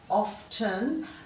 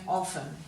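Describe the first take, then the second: First: The t sound in the middle is pronounced. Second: The t sound in the middle is silent. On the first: "some people are still saying that T in often" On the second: "you will hear people also saying often"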